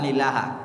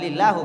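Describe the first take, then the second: First: The word ends with an a vowel. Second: The word ends with a u vowel.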